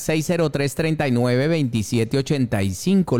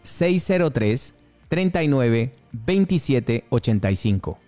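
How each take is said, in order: First: The number is said at a faster pace. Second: The number is said at a slower pace.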